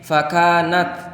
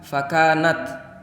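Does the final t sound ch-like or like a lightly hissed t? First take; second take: lightly hissed t; lightly hissed t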